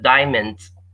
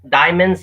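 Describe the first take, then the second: First: The final D sound is pronounced. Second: The final D sound is dropped.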